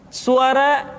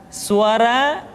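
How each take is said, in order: No difference in how they are said.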